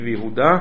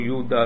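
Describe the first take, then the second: First: The stress falls on the final syllable. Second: The stress falls on the next-to-last syllable. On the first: The speaker calls it right. "כל השמות בעברית הם מלרע" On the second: The speaker calls it wrong. "לא יהודה"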